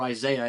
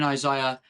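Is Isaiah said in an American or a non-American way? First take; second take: American; non-American. First: Isaiah is said with an American pronunciation. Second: Isaiah is said with a non-American pronunciation.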